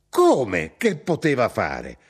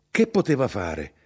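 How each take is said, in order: First: Slow, emphatic outraged echo; indignant, drawn-out comeback; incredulous retort. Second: Said in the usual way. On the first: Acted. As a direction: throw the question back in exasperation. Mother throws son's question back.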